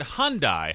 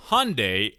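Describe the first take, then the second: First: "Hyundai" said as HUN-die; pronounced HUN-die. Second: "Hyundai" said as HUN-day; pronounced HUN-day. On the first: Host offers the other way to say the brand, "Hyundai" as HUN-die. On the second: Host offers one way to say the brand, "Hyundai" as HUN-day. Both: Shown as a demonstration. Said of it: "How do they pronounce it".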